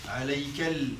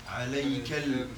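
No difference in how they are said.

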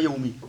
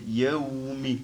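First: The 'aw' sound is kept short and clipped. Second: The 'aw' sound is drawn out a little longer. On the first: The speaker calls it wrong. "On ne dit pas yawmi" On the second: The speaker calls it right. "quand ils avaient le sukun, on les prolonge un peu. Donc yawmi"

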